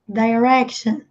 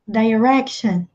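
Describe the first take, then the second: The two takes are said the same way.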